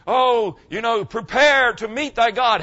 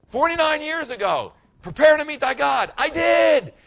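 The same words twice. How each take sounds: First: Slow, loud, ominous fire-and-brimstone warning; mock doom preacher. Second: Triumphant shout. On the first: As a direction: ham up the scary old-time preacher. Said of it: "people mean". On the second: Real, not acted. Retelling his own conversion.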